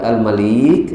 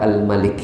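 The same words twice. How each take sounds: First: The vowel in the word is long. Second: The vowel in the word is short. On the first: "lamnya panjang" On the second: "lamnya pendek"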